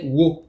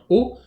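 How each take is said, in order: First: It starts with a w sound before the o. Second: It is a plain o vowel with no w. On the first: This is the name of the kana itself. "mais le hiragana c'est wo" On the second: This is how the particle is said. "La particule se prononce bien o"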